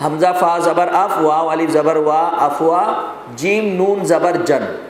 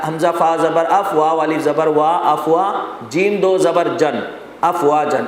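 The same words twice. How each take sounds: First: افوا built syllable by syllable, then جیم نون زبر جن drawn out slowly; measured qaida spelling with نون named before جن; spelling-out recitation. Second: افواجن spelled syllable by syllable with دو زبر on the last; measured qaida spelling, ending جیم دو زبر جن، افواجن; spelling-out recitation. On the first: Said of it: "ایک ہجا یوں ہے اس کا". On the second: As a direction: spell out each syllable of افواجن, then join them. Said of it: "افواجن کا ایک ہجا تو یوں ہے". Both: Shown as a demonstration.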